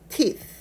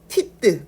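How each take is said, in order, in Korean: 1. 이 단어 끝에는 모음 소리가 추가로 붙지 않아요. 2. 이 단어 끝에는 모음 소리가 추가로 붙어요. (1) "으 발음을 빼고 실제로 영어 발음을 하려면 teeth" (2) "티뜨라는 발음으로 우리가 인식하기 때문에 으 발음을 빼고"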